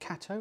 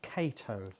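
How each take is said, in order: First: The first syllable sounds like the word cat. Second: The first syllable does not sound like cat. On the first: "like the animal" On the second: "as in like Pink Panther"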